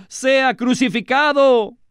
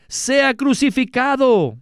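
First: High, slow crowd shout, pushed harder; the mob yells it again with more force; shouting even more. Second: High, slow demanding cry from the crowd; crowd shout. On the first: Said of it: "gritaban aún más". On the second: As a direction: call it out like an angry mob, much higher. The whole crowd demands crucifixion. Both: A narrator's reading.

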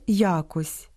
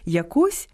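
First: Я́кось, first syllable stressed; якось with the stress on Я. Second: ЯкО́СЬ, second syllable stressed; якось with the stress on КОСЬ; stress on last syllable. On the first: (наголос на першому складі: я́кось) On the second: (наголос на другому складі: яко́сь) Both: Shown as a demonstration. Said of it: "має і паралельний наголос".

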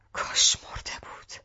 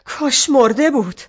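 First: Broken whispered echo; softer whispered repeat in despair. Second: Louder anguished cry; loud bitter outburst; shouting. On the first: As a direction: let it fall into a hoarse whisper. Mother repeats after shouting. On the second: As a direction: shout it out in despair. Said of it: "داد زد". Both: Acted.

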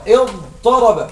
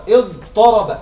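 First: اضطرب drawn out slowly, letter by letter; teacher stretching اضطرب to show its letters; slow syllable drill. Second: Said in the usual way. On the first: Shown as a demonstration. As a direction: spell out اضطرب slowly for the class. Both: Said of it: "تعرفوا معنى اضطرب؟".

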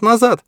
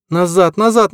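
First: Higher, loudest final cry; final shout. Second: Chanted, high, repeated like a spell; chanted shout. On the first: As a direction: top it off with a yell. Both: A narrator's reading. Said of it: "словно заклинание повторяла".

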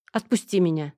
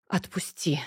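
First: Said in the usual way. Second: Breathy, weary whisper; tired whisper. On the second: Acted. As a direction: sigh it out, worn out. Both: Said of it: "устало вздохнула я".

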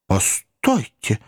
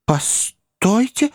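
First: Said in the usual way. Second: Much higher, slow drawn-out «Постойте!»; Pickwick interrupting. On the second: A narrator's reading. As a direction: hold them back with «Постойте!» high and long. (высокое протяжное «Постойте!») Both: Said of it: "вмешался мистер Пиквик".

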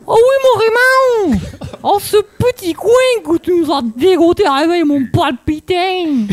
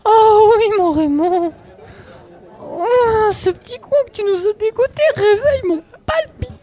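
First: Put-on a light Marseille accent, calmer. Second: High, breathy-swooning rapture with a cry; overexcited ecstasy. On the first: Actress retries Bertha in a light Marseille accent. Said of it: "essayez avec l'accent marseillais". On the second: Acted. Actress plays Bertha far too ecstatic, high swooning. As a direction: swoon over the top at the clearing. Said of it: "elle a pas un orgasme non plus".

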